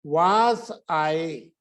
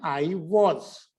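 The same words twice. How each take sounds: First: Slow 'वाज I' with a long open AA; long-vowel 'was'. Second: 'I वॉज' with rounded short O; short 'was'. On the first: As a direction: stretch 'वाज' out wide before 'I'. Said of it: "एक तो बोलते हैं इसको वाज". (लंबा 'वाज' उच्चारण) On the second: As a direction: say 'वॉज' rounded after 'I'. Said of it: "एक बोलते हैं". (छोटा 'वॉज' उच्चारण) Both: Shown as a demonstration.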